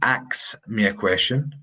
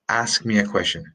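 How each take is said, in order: First: The first word ends with a ks sound. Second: The first word ends with an sk sound. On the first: The speaker calls it wrong. "not ax me a question" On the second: The speaker calls it right. "sk, ask"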